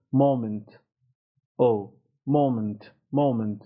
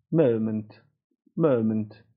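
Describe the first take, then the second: First: MOMENT with rounded American "oh"; American pronunciation. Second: MOMENT with British "əu" in the first syllable; British pronunciation. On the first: Teacher contrasting accents, American مومنت with rounded "oh". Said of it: "امریکنش". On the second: Teacher contrasting accents, British مومنت with central "əu". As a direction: say مومنت starting from a central "uh" glide. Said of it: "بریتانیاییش". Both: Shown as a demonstration.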